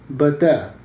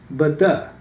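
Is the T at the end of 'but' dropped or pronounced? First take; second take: dropped; dropped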